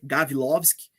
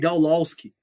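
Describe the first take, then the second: First: The W is said like a V. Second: The W is said like an English W. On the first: This is the proper Polish pronunciation. The speaker calls it right. "o correto seria com o W, com som de V" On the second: This is how the name's owner said it himself. The speaker calls it wrong. "Meio inglês, assim, a pronúncia"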